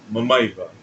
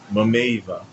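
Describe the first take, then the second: First: The second vowel is a short 'a' sound. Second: The second vowel is an 'e' sound. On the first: "tem uma palavra chamada Mamaiva" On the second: "o falante do Hindi está pronunciando Mameiva"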